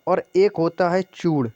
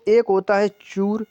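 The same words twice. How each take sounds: First: चूड़ ending in a retroflex ड़; final flap in चूड़. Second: चूर ending in a plain r; final R in चूर. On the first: Teacher contrasts two words for students, retroflex ड़ in चूड़. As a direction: curl the tongue for the end of चूड़. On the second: Teacher contrasts two words for students, plain r in चूर. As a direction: end चूर on the र sound. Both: Shown as a demonstration. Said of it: "जो रे वाला चूर है".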